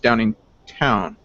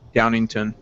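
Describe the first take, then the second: First: The last syllable is said with a w sound. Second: The last syllable is said without a w sound. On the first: "there's a W, so it's Downingtown" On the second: "Some people would just ignore the W. ... so it's definitely Downington"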